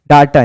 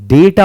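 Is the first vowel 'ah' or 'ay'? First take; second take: ah; ay. First: The first vowel sounds like 'ah'. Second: The first vowel sounds like 'ay'. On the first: The speaker calls it wrong. "डाटा नहीं" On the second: The speaker calls it right. "डेटा होता है"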